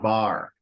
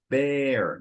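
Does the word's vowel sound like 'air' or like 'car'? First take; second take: car; air. First: The vowel sounds like the vowel in 'car'. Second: The vowel sounds like the vowel in 'air'. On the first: The speaker calls it wrong. "not not bar" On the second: The speaker calls it right. "the silent E leads you to pronounce it with an open A"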